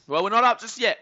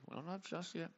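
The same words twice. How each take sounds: First: Loud, high protest; raised-voice correction; emphatic correction. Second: Very soft, under the voice; hushed afterthought; quiet repeat. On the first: Correcting chatter, then repeats quieter. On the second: Same words repeated far quieter. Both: Real, not acted.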